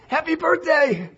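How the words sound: It is said excitedly, with feeling.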